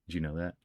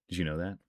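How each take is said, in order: The two takes are said the same way.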